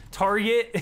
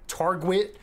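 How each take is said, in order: First: "target" said cleanly with no w, higher; emphatic fixed "target"; corrected target. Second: "target" slipped into "targwit"; "target" fumbled as targ-wit; mispronounced target. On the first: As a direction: say "target" firmly as tar-get. Corrects own slip. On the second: Slip of the tongue, then corrected. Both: Real, not acted.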